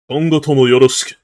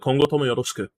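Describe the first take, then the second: First: It is said in an exaggerated put-on voice. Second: It is said in a natural, formal pitch.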